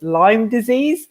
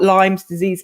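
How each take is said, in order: First: There is no s sound after Lyme. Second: There is an s sound after Lyme. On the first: The speaker calls it right. "it's Lyme disease" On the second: The speaker calls it wrong. "It's not Lyme's disease"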